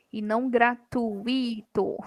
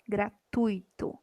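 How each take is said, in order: First: Gratuito split slowly into gra-tu-i-to; slow gratuito with u and i apart; wrong pronunciation. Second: Gratuito, slow, gra-tui-to with ui joined; correct syllable split. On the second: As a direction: say Gratuito the right way, slowly. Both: Shown as a demonstration.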